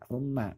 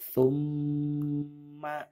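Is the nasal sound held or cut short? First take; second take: short; held. First: The nasal sound is said quickly and short. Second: The nasal sound is held long and stressed. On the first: The speaker calls it wrong. "tidak boleh dibaca seperti itu" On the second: The speaker calls it right. "ditekan dan ditahan dua harokat"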